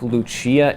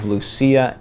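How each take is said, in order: First: The name is pronounced the Italian way. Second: The name is pronounced the Spanish way. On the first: The character is Italian. "I think Lucia if she's Italian" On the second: The character is Spanish. "and Lucia if she's Spanish"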